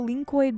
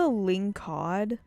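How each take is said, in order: First: The word ends with a 'coid' sound. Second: The word ends with a 'cod' sound. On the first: The speaker calls it wrong. "I don't know where I got coid from" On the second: The speaker calls it right. "it's called a lingcod"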